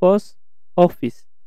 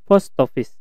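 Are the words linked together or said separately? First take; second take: separate; linked. First: The two words are said separately. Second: The T is joined directly onto the O. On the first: "pronunciation-nya yaitu post office" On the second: "disambung huruf T dengan O-nya itu digabung"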